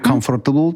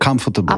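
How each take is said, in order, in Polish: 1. R w środku jest wyraźnie wymawiane. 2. R w środku jest prawie niesłyszalne. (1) "Nie comfortable" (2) "tylko comfortable"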